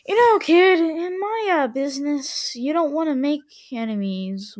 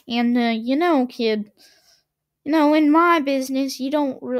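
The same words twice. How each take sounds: First: Said in the usual way. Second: Put-on hammy mobster-style Italian accent; a badly faked Italian accent; fake Italian accent. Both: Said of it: "I'm gonna stop doing a fake Italian accent".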